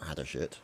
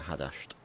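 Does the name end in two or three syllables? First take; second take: three; two. First: An extra vowel is heard before the final t. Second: No vowel is heard before the final t. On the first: The speaker calls it wrong. "Not Hadashit" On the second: The speaker calls it right. "but Hadasht. Try and get the pronunciation right"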